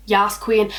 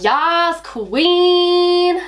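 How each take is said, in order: First: Said in the usual way. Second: High, long-held exclamation, hammed-up; over-the-top Yas Queen. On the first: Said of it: "I can never read it like". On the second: Shown as a demonstration. Showing how she has to read the phrase, over-the-top and drawn out. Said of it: "I've gotta be like".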